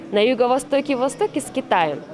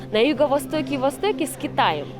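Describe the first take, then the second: Both takes have the same delivery.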